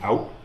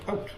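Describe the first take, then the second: First: The word is said with an American vowel. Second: The word is said with a Canadian vowel. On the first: Someone else said it. "people are like, you mean out?" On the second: The speaker said it. "And I'm like"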